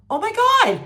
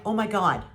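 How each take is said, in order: First: Much higher and louder shocked cry; shocked exclamation. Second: Said in the usual way. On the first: Retold or imitated. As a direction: explode in disbelief. Retold shocked reaction, escalated.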